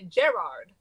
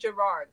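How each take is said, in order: First: The name is said with a British pronunciation. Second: The name is said with an American pronunciation. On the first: This is how they say it on the show. "They say Gerard. ... Like a garage. ... Is that the British way to say it?" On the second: This is not how they say it on the show. "they don't say Gerard"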